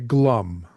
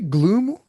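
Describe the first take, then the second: First: The vowel is a short 'uh' sound. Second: The vowel is a long 'oo' sound. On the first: The speaker calls it right. "I usually would say glum" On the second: The speaker calls it wrong. "Do you say gloom?"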